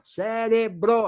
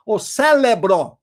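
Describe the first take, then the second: First: "cérebro" with a clear R, syllable by syllable; higher, drawn-out "cérebro" with its proper R; corrected pronunciation. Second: "célebro" with an L for the R, slow and loud; higher, drawn-out, wrong "célebro"; mocked mispronunciation. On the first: Shown as a demonstration. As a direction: correct it slowly: "cé-re-bro". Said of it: "Não, cérebro aqui". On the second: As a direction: mockingly stretch out "célebro", L in place of R. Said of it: "como dizem alguns".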